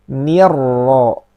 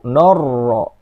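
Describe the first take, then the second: First: The first syllable sounds thin and light. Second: The first syllable sounds thick and rounded. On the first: The speaker calls it right. "Tapi harus ni" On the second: The speaker calls it wrong. "Jangan sampai"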